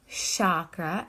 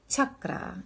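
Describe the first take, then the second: First: The first vowel is not a short 'cup' vowel. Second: The first vowel is short, like in 'cup'. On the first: The speaker calls it wrong. "Not chakra" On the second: The speaker calls it right. "It's a short a, like cup in chakra"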